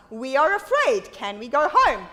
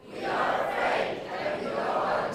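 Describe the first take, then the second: First: Said in the usual way. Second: Soft, whispered group echo. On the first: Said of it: "when I say to you". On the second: Real, not acted. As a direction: murmur it back quietly. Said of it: "repeat what I say".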